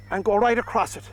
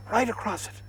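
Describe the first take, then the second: First: Said in the usual way. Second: Softly whispered instruction. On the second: Shown as a demonstration. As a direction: drop to a gentle hush. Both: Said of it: "whisper to it".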